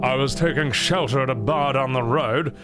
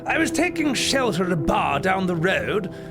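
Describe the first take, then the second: First: A deep, old man's voice. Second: A nasal, snooty British voice. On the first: "That's a really deep voice" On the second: "A nasally, snooty British man"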